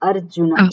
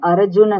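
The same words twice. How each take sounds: First: The stress is on the first syllable. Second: The stress is not on the first syllable. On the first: The speaker calls it right. "અ ઉપર વજન મૂકવાનું" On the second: The speaker calls it wrong. "Arjun નહીં"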